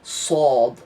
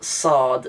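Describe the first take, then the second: First: The s sound is deepened and lower. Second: The s sound is plain and light. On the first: The speaker calls it right. "you deepen the sounds, you pronounce it a little bit lower" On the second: The speaker calls it wrong. "This isn't sad"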